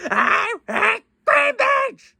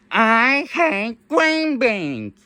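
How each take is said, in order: First: Very high, slow squawky parrot echo; high slow parrot squawk. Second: Slow drawn-out squawky bird voice; slow parrot voice. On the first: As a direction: squeal it out like a parrot. Parrot repeats higher. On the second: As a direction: stretch each word like a bird. Parrot voice said slowly. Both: Pretend.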